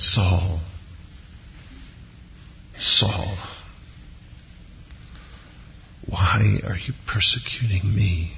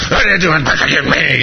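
First: Soft, heartbroken pleading; hushed, sorrowful appeal with long pauses; pathos and heartbreak. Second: High-pitched mock-furious demand; hammed-up wrathful scolding; angry voice from heaven. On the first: Acted. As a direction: say it gently, as if deeply wounded. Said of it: "there's a pathos and a heartbreak to it". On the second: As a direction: play an outraged God, overdone. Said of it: "I don't think this is angry".

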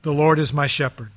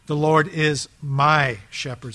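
First: Said in the usual way. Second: Slow reading, "my" leaned on with a rising end; stress on my. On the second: Shown as a demonstration. Pastor stresses "my" in Psalm twenty-three, slow and rising. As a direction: draw out "my" in "The Lord is my shepherd.". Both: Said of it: "that little word "my".

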